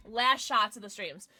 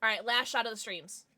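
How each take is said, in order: First: "Last" drawn out and a bit louder; slow announcer-style "Last shots"; stress on Last. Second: Said in the usual way. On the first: Shown as a demonstration.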